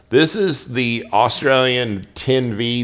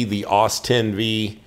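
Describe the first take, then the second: First: Says Australian ten V, full word Australian; misspoken Australian. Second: Aus ten V, Aus said as one short syllable, slow; fixing his slip, he slowly says Aus ten V; corrected steel name. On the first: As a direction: slip into saying Australian ten V. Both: Real, not acted. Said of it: "I don't know why I said Australian".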